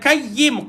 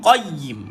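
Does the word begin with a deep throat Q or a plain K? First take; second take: plain K; deep Q. First: It begins with a plain front K sound. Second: It begins with a deep throat Q sound. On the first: The speaker calls it wrong. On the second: The speaker calls it right.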